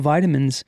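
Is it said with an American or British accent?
American. It is said with an American accent.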